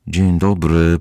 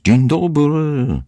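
First: Said in the usual way. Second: Long, high, drawn-out call; high call into the house. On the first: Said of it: "powtórzyli Tommy i Annika". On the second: A narrator's reading. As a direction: sing out the greeting, stretched and loud. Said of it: "wołając".

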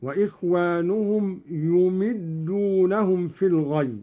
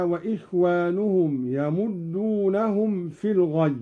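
First: يمدونهم as yumiddunahum, damma on ya, kasra on mim; Qalun reading يمدونهم. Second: Said in the usual way. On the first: Shown as a demonstration. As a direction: read يمدونهم with yu and mi. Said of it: "بضم الياء وكسر الميم". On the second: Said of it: "قرأ قالون".

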